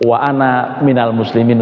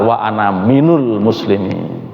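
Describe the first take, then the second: First: The second word is said with an 'a' vowel. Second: The second word is said with a 'u' vowel. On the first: The speaker calls it right. "Yang betul" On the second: The speaker calls it wrong. "Yang salah"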